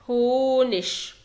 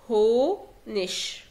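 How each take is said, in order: First: The word ends with a soft 'ch' sound. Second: The same.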